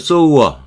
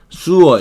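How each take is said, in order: First: The first vowel sounds like 'oh' in 'so'. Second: The first vowel sounds like 'oo' in 'sue'. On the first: A person who sews. "이게 뜨개질 하는 사람이죠" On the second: A drain for waste water. "수어 이렇게 발음하게 되면은 이게 뭐 하수구"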